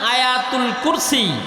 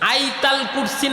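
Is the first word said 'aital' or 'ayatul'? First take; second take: ayatul; aital. First: The first word is said as 'ayatul'. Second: The first word is said as 'aital'.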